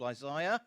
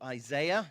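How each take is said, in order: First: The name is said in a non-American way. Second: The name is said in an American way.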